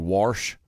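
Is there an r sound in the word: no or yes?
yes. The word is said with an added r sound.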